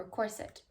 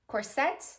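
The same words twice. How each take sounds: First: "corset" as COR-sit; weight on the start of "corset", soft i after; softer "corset", stressed on COR; stress on first syllable. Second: "Corset" as cor-SET, ending on a rise; questioning "Corset", stressed on SET; stress on second syllable. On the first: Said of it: "Putting the emphasis on the first syllable". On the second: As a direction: put the weight on the end of "Corset". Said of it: "emphasis or the accent on the second syllable". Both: Shown as a demonstration.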